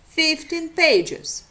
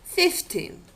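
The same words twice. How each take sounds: First: Fifteen pages slow, Fifteen stressed on its first syllable, pages weaker; phrase rhythm pulls the stress onto FIF in Fifteen; stress shift in phrase. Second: Fifteen said alone, stress landing on the second syllable; isolated word Fifteen, stress on -teen. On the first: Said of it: "doesn't coincide with that of a phrase". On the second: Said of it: "rhythmic structure of the isolated word". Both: Shown as a demonstration.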